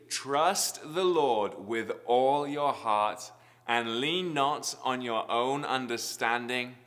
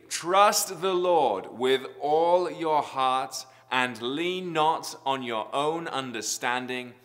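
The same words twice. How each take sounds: First: It is said at normal volume. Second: It is said very loudly.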